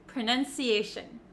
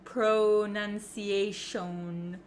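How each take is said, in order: First: The first vowel is a short 'uh'. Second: The first vowel is a wide, open 'oh'. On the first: The speaker calls it right. "it's actually kind of pronounced like a U, like an uh" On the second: The speaker calls it wrong. "You don't need to open your mouth very wide with an O"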